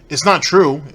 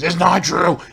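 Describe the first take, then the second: First: It is said in his normal voice. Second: It is said in a mocking Ralph voice.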